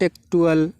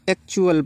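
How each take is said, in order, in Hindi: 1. बीच का व्यंजन एक सामान्य t की आवाज़ है। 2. बीच का व्यंजन ch की आवाज़ है। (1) "बहुत से बच्चे इसको एक्टुअल पढ़ते हैं, नॉट एक्टुअल" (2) "इसको एक्चुअल पढ़ेंगे"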